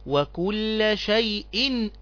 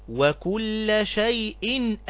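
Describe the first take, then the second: No difference in how they are said.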